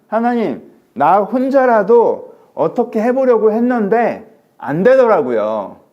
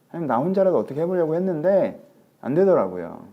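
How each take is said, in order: First: High, loud, very slow wail; anguished lament. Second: Said in the usual way. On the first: Acted. Elijah cries to God he failed alone, drawn out. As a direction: stretch out 해보려고 in anguish. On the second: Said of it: "restates line".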